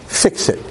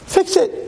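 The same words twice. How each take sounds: First: Breathy whispered fix it; whispered plea. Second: Much higher, urgent fix it; high pleading cry. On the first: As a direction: whisper the request like a secret prayer. Moshe begging Hashem to fix him. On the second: Moshe begging Hashem to fix his speech, high plea. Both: Acted.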